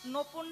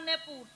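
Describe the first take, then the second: First: The first syllable has an o vowel. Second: The first syllable has an e vowel.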